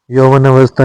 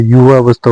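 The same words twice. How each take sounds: First: यौवनावस्था beginning "yauvan"; wrong word. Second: युवावस्था beginning "yuva"; correct word. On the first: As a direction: say यौवनावस्था in full. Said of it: "नहीं होता है". (यौवनावस्था, यौवन से शुरू) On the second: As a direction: say युवावस्था without the n. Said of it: "होता है". (युवावस्था, युवा से शुरू) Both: Shown as a demonstration.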